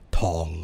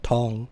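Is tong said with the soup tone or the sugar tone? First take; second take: sugar tone; soup tone. First: The word carries the slightly shifted 'sugar' tone. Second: The word carries the tone of 'soup'. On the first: The word means sugar. "warp it a little bit, it becomes tong. Tong, and then it becomes sugar" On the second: The word means soup. "soup is tong"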